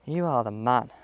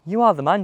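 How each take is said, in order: First: You hit first, the rest low and soft; pep talk stress on you. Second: Are leaned on, rising at the end; pep talk stress on are. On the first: Golfer's quiet pep talk to himself, stress on you. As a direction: put the weight on you, quietly. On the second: Golfer talking himself up before a swing, stress on are. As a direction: stress are to gee yourself up. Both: Real, not acted. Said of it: "Just giving myself a little pep talk here".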